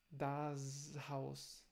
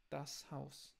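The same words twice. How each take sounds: First: Das Haus with a buzzing z at the end of das; wrong voiced s. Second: Das Haus with a sharp hissed s; now the right das Haus; correct unvoiced s. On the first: Teacher demonstrates the Brazilian mistake. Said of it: "não é". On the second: Teacher gives the correct version for learners. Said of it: "é sempre um, uma S". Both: Shown as a demonstration.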